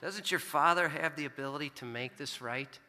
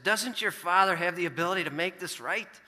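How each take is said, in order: First: Gentle voice of God. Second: Stern, higher and louder fatherly lecture; stern dad lecturing his son. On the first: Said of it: "God spoke to me and said the exact same thing". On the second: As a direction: scold like a father setting things right. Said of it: "in a stern, lecturing voice". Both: Retold or imitated.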